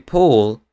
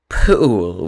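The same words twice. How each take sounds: First: Said in the usual way. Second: "pool" with a Scottish oo sound in place of the o. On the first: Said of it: "instead of saying". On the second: Shown as a demonstration. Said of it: "they say".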